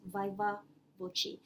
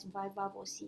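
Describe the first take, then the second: First: Viva voce with VOCE as "VO-chee". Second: Viva voce with VOCE as "VO-see". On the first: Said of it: "pronounce it as viva voce". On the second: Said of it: "some might pronounce it as". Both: Shown as a demonstration.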